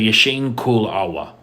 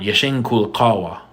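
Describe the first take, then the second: First: The last word starts without the q sound. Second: The last word starts with a q sound.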